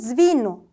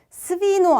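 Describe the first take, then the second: First: The first consonant is a z sound. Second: The first consonant is an s sound. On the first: The speaker calls it right. "스비노 이렇게 되고" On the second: The speaker calls it wrong. "비타가 뒤에 오면 스비노 아니고"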